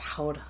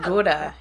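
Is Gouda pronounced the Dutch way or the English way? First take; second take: Dutch; English. First: The word is said the Dutch way. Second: The word is said the English way. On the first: The speaker calls it right. "it's actually pronounced Gouda" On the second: The speaker calls it wrong. "It's not Gouda"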